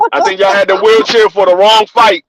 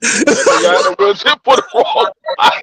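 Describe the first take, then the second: First: Said in the usual way. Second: Mock voice. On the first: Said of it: "repeated for effect". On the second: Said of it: "repeated with changed voice".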